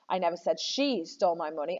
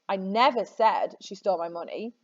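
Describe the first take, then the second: First: The stress is on "she". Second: The stress is on "never".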